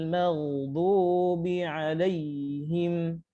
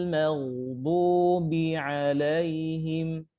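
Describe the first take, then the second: No difference in how they are said.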